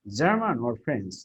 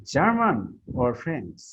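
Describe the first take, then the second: First: German rises, French falls off at the end; choice question intonation. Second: German raised slowly, French falling; choice question intonation. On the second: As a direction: lift German, let French drop. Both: Shown as a demonstration. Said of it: "you are raising your voice".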